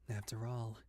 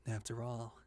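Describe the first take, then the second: No difference in how they are said.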